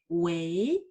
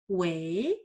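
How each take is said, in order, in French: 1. La syllabe est prononcée avec le deuxième ton. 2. La syllabe est prononcée avec le deuxième ton.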